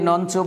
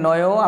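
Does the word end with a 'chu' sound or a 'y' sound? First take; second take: chu; y. First: The word ends with a 'chu' sound. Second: The word ends with a 'y' sound. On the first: The speaker calls it wrong. "এটাকে অনেকে নঞ্চু বলে থাকে, এটা আসলে নঞ্চু না" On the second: The speaker calls it right. "এর উচ্চারণ হবে নয়"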